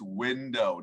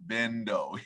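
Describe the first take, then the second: First: The word begins with a W sound. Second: The word begins with a V sound. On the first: The speaker calls it right. "it's window" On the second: The speaker calls it wrong. "not bendo"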